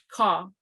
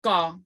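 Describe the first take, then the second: First: Ka with a plain aspirated K; regular K. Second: Ka with a sound between G and K; blended G-K. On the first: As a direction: say ka with a breathy K. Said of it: "we have a regular K". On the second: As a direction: hit ka halfway between G and K. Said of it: "a blend between a G and a K". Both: Shown as a demonstration.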